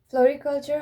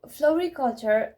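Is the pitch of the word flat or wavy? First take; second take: flat; wavy. First: The pitch stays level and calm. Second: The pitch moves up and down expressively. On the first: The speaker calls it right. "in a very boring, mundane tone" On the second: The speaker calls it wrong. "Just don't go it like w- wavy"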